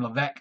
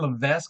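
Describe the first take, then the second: First: The s sound in the middle is silent. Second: The s sound in the middle is pronounced. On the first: The speaker calls it right. "he didn't pronounce his S" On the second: The speaker calls it wrong. "I just keep pronouncing it"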